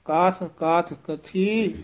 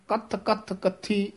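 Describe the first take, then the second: First: ਕਾਥ, ਕਾਥ with long vowel, ਕਥੀ soft; soft, undoubled words. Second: ਕੱਥ, ਕੱਥ, ਕੱਥੀ short with doubled th; wrongly tight consonants. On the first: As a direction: open out ਕਾਥ, no doubled th. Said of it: "ਪੋਲੇ ਹੀ ਪਦ ਬੋਲਨੇ ਹਨ". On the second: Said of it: "ਇਸ ਤਰ੍ਹਾਂ ਨਹੀਂ ਬੋਲਣਾ". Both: Shown as a demonstration.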